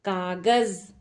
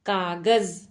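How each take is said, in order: No difference in how they are said.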